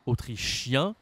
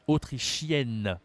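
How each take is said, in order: First: AUTRICHIEN with "ien" through the nose; rising "autrichien", no n sounded; nasal ending. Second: AUTRICHIENNE slow, ending "-yenn" with sounded n; feminine pronunciation. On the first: Teacher showing it goes with the nose, nasal ending. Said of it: "ça va avec le nez". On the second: Teacher contrasting endings for a learner, feminine pronunciation. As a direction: draw out the n of "autrichienne", falling. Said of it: "la prononciation est différente". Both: Shown as a demonstration.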